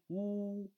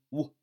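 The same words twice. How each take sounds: First: 呜 held long and higher; long vowel. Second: 呜 said short; short vowel. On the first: Teacher demonstrates the long vowel, 呜 held long. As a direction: draw out 呜 on a steady high note. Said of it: "长音呜". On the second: Teacher demonstrates the short vowel, 呜 said briefly. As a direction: cut 呜 off quickly. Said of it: "短音呜". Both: Shown as a demonstration.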